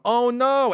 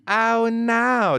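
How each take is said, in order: First: It is said in a plain, ordinary voice. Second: It is said in a campy Family Guy impression.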